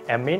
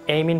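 First: It is said with an American pronunciation. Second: It is said with a British pronunciation. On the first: "আমেরিকানের অ্যামিন বলে" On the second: "ব্রিটিশটা এমিন বলে"

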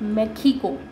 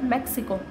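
First: The word is pronounced the Spanish way. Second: The word is pronounced the English way. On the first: "इसको स्पेनिश में पढ़ा जाता है" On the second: "जैसे इंग्लिश में बोलते हैं"

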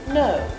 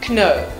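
First: The word starts with no K sound. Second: The word starts with a K sound. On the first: The speaker calls it right. "We say no" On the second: The speaker calls it wrong. "So we never actually say kno"

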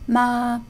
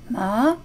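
First: The pitch stays high and level. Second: The pitch rises from mid to high.

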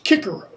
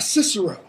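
First: The c letters are said as k sounds. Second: The c letters are said as s sounds. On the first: The speaker calls it right. "It's Cicero" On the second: The speaker calls it wrong. "It's not Cicero"

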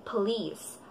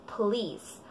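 Both takes have the same delivery.

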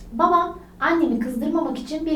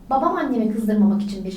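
First: There is a short pause after the first word. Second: It is read straight through without any pause. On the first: "Virgülle okudum" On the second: "Şimdi virgülsüz okuyorum"

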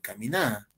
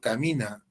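First: The stress is on the last syllable. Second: The stress is on the second-to-last syllable. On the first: "la Argentina dice camina" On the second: "digo camina"

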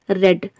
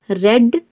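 First: The vowel is short, like in 'bed'. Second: The same.

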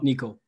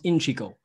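First: The opening consonant sound is left silent. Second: The opening consonant sound is pronounced. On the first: The speaker calls it wrong. "not Nico. I don't know why I was thinking it was a silent C" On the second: The speaker calls it right. "it's pronounced Inchico"

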